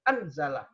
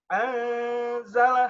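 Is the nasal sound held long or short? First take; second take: short; long. First: The nasal sound is cut short. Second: The nasal sound is held long. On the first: The speaker calls it wrong. "tidak membaca gunnah" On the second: The speaker calls it right.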